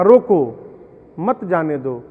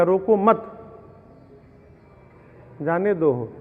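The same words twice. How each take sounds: First: रोको called out louder, pause, then मत जाने दो together; pause after रोको. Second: रोको मत run together, long pause, then जाने दो; pause after मत. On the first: Father ordering son to stop the visiting friend, pause after रोको. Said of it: "पिता ने कहा". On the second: Son mishearing his father's order, long pause after मत. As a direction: join मत to रोको, stop, then release जाने दो. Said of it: "लड़िकवा सुन लिया". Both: Retold or imitated.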